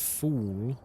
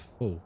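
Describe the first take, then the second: First: The vowel is a long 'oo' sound. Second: The vowel is a short 'u' sound. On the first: This is the usual non-Texan pronunciation. "Instead of fool" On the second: This is the Texan pronunciation. "they say full"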